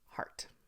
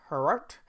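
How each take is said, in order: First: It is said as a single syllable. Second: It is said as two separate syllables. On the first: The speaker calls it right. "but it's heart" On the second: The speaker calls it wrong.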